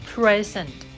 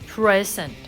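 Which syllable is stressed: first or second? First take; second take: first; first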